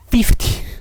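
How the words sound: It starts with a lip-biting f sound. "이게 아래 입술을 이렇게 깨물면서 해야 되는 거죠?"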